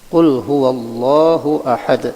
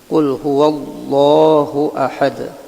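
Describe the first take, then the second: The two takes are said the same way.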